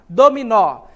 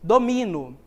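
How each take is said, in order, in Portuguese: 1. A tônica está na última sílaba. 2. A tônica está na segunda sílaba. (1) "A que é pronunciada com mais força é o nó" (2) "eu não pronuncio o nó como uma sílaba mais forte"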